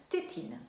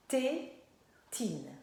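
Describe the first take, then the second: First: Said in the usual way. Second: TÉTINE in two beats, TÉ, long pause, TINE; syllable by syllable. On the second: Shown as a demonstration. Teacher asking how the word starts, syllable by syllable. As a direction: pull TÉTINE apart into TÉ... TINE. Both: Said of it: "par quoi est-ce que ça commence?".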